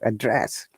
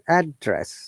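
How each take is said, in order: First: The stress is on the second syllable. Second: The stress is on the first syllable. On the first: The word is used as a verb. "if it is used as verb, then we stress on the second syllable" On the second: The word is used as a noun. "Stress on ad, higher intonation to lower intonation"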